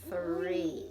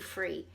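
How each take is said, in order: First: The word begins with a long th sound. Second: The word begins with an f sound. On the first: The speaker calls it right. "Let's hold that T H out a long time" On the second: The speaker calls it wrong. "if you can't do that and you want to say one, two, free"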